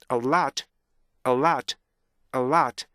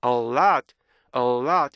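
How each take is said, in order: First: A LOT with a quick T-stop between A and LOT; stop before L. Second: A LOT with A held long, no stop before L; overlong first vowel. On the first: Teacher drilling students, short A, stop, then LOT. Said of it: "스탑 사운드를 T로 잡으셔야 돼요". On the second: Teacher showing students' fault, A LOT too drawn out. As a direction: let A drag into LOT. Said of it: "이 발음이 너무 길어서요". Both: Shown as a demonstration.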